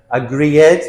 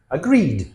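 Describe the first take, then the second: First: "agree ed" with a separate loud ED; wrong extra syllable. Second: "agreed" ending in a simple voiced d. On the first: Teacher shows the mistake, "agree ed" with an added syllable. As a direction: break "agree ed" into agree-ED. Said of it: "We never say". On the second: Teacher models the D ending, "agreed" with a plain final d. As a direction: say "agreed" with no extra syllable. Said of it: "Notice the D sound at the end". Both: Shown as a demonstration.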